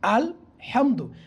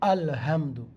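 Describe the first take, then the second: First: The h is pressed from the middle of the throat. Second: The h is a light, breathy sound. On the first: All praise belongs to God. The speaker calls it right. "হায়ে হুত্তি গলার মধ্যখান থেকে চাপ দিয়ে উচ্চারণ হচ্ছে" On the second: All inactivity belongs to God. The speaker calls it wrong. "এই হাটা যদি হায়ে হাওয়াজ দিয়ে যদি পড়ি"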